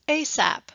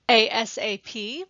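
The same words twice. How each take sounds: First: The letters are blended into one word. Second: Each letter is said separately. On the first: "sometimes you can read it as ASAP. You can blend the words together" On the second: "You can read them as individual letters like ASAP"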